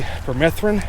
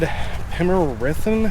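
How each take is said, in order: First: It is said with three syllables, 'per-meth-rin'. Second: It is said with four syllables, 'pim-er-i-thin'. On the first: This is how it is said locally. "We say permethrin around here" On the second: Someone else said it this way. "he said pimerithin, something along that line"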